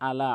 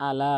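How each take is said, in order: First: "আলা" begun from mid-throat, slow; throaty drawn-out "আলা"; correct ayn. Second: "আলা" starting on a plain A; wrong hamza. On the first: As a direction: squeeze the first A of "আলা" into ayn. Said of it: "হলকের মাঝখান থেকে উচ্চারণ করবেন". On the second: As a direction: say "আলা" without throat. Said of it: "আলা বলে". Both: Shown as a demonstration.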